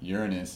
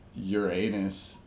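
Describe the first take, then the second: First: It is said in the astrologers' way. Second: It is said in the funny-sounding way. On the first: "Uranus is not. It's just not funny" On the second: "but Uranus is funny. It sounds funny"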